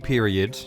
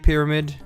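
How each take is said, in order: First: The word is shortened to sound like period. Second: The word is said with its full pyramid sounds. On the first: The speaker calls it wrong. "Now it feels wrong saying it that way" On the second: The speaker calls it right. "I said it right"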